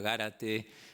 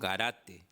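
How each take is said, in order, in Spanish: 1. La acentuación recae en la primera sílaba. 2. La acentuación recae en la segunda sílaba. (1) "en Esdrújula Gárate" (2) "es una pronunciación llana"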